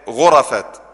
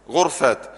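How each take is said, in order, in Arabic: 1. بعد الراء فتحة. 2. بعد الراء لا حركة. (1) "وينفع ايه افتحها" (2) "وينفع اسكنها"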